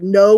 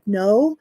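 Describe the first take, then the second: First: It is said firmly, like a statement. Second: It is said hesitantly, like a question.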